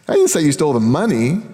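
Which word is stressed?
stole. The word stole carries the main stress. The listener did something else with it. "You took the box, but I, I don't know what happened to the money"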